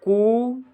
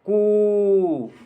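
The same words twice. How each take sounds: First: The sound is held somewhat longer. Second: The sound is drawn out very long. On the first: "फिर करता है कू" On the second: "last में बोलता है वो कू"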